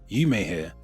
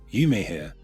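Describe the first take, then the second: No difference in how they are said.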